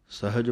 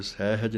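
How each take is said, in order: First: ਸਹਿਜ as sahij; correct reading. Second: ਸਹਿਜ said as sehaj, ਐ on ਸ; wrong reading demo. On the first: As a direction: model ਸਹਿਜ with ਹਿ short. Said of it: "ਸਹਿਜ ਪਾਠ ਪੜ੍ਹਨਾ ਹੈ". (ਸਹੀ ਉਚਾਰਣ ਸਹਿਜ) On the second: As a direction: show the mistake ਸਹਿਜ with ਸੈ. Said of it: "ਸਸੇ ਦਲਾਈਆਂ ਲਾ ਕੇ ਸਹਿਜ ਨਹੀਂ". (ਗ਼ਲਤ ਉਚਾਰਣ ਸਹਿਜ, ਸੈਹਜ) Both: Shown as a demonstration.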